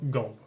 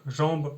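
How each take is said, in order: First: It begins with a hard g sound. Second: It begins with a soft j sound. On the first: This is the Ch'ti dialect form. "le je devient ge en ch'ti" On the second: This is the standard French form. "le je devient ge en ch'ti"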